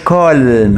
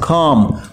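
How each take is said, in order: First: The word is said with an audible L. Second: The word is said with a silent L. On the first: The speaker calls it wrong. "مش كالم" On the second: The speaker calls it right. "هنا ال حرف صامت"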